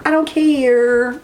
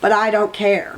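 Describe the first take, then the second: First: Slow, stretched and rising; stubborn drawn-out I don't care; drawn-out defiant. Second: Said in the usual way. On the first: Shown as a demonstration. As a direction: linger on each word, daring anyone to object.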